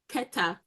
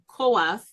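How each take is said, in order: First: The name is pronounced as Keta. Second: The name is pronounced as Koath. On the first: This is how the name is really spelled. The speaker calls it right. "his name is really Keta" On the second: This is the form scholars chose for the name. The speaker calls it wrong. "the scholars deter- decided to call his name Koath"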